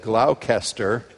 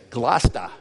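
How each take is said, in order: First: It is pronounced following every letter of the spelling. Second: It is pronounced in a shortened, reduced local form. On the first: This is how an outsider would read the name. The speaker calls it wrong. "when your town looks like it should be said Gloucester" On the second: This is how local people say the name. The speaker calls it right. "they really chuckle because they say Gloucester"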